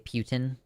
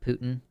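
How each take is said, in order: First: The name is said the British way. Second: The name is said the American way. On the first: "in the U K, they say Putin" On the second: "not Putin"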